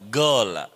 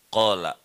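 First: It begins with a hard g sound. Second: It begins with a deep throaty q sound.

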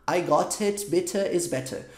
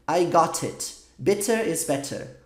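First: Each t is a crisp, strong t sound. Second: The same.

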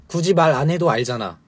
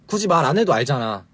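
Both takes have the same delivery.

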